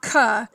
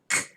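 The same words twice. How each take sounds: First: A vowel sound follows the consonant. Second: The consonant is short with no vowel after. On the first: The speaker calls it wrong. "It's not k" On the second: The speaker calls it right. "has no vowel sound in it at all"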